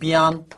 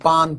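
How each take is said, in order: First: The word is said slowly, in two syllables. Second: The word is said fast, in one syllable.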